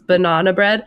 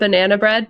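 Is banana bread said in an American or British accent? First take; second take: British; American. First: It is said with a British accent. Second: It is said with an American accent.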